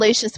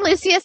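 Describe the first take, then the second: First: The name is pronounced in a lazy, casual way. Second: The name is pronounced in a careful, elegant way. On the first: The speaker feels lazy. "when I'm lazy" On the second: The speaker feels elegant. "when I feel elegant"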